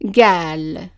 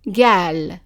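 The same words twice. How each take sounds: First: The word starts with a g sound. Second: The word starts with a g sound.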